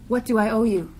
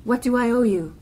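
The two takes are said the same way.

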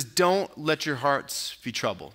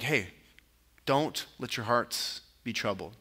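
First: Said in the usual way. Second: Softer, lower, soothing reassurance; calm them gently, keeping the voice down; gentle. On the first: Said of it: "it's a command". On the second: Retold or imitated. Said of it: "it's probably a gentle".

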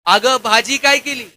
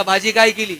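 First: Mock yell, slower and drawn out; yelling in her ear. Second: Mild call from the doorway. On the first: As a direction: yell the question slowly right into her ear. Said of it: "जोरात कानात ओरडला". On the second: Retold or imitated. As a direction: call casually toward the kitchen. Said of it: "यानं आवाज दिला".

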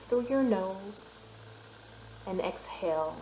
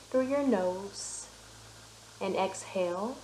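No difference in how they are said.

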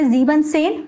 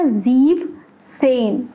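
First: ज़ीबन सेन, keeping the -बन ending before सेन; incorrect full form. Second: ज़ीब सेन, drawn out slowly with the -en dropped; correct pronunciation. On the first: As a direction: say ज़ीबन सेन with both syllables of ज़ीबन. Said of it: "लेकिन ये नहीं होता". (ज़ीबन सेन, ईएन हटाए बिना) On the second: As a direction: say ज़ीब सेन slowly, ending the first word on b. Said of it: "इसका exact pronunciation क्या हो गया". (ज़ीब सेन, ईएन हटाकर धीरे-धीरे) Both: Shown as a demonstration.

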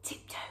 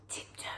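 The two takes are said the same way.

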